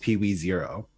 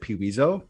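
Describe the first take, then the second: First: The name ends in the full word 'zero'. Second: The name ends in a short 'zo' sound. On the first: "but it's Peewee Zero" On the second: "I pronounce it Peeweezo"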